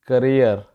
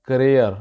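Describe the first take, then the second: Both takes have the same delivery.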